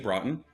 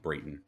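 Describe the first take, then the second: First: The name is said the original Norwegian way. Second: The name is said the Americanized way. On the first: This is how it is said in the old country. "they actually are pronouncing it the correct way" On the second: This is how the family says it now. "they changed it to Brayton to make it, I don't know, more American"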